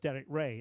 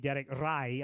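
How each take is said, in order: First: The surname's vowel sounds like 'day'. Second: The surname's vowel sounds like 'eye'. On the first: The speaker calls it right. "it's Derek Ray, it's not Rai" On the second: The speaker calls it wrong. "if somebody called me Derek Rai, I would say no"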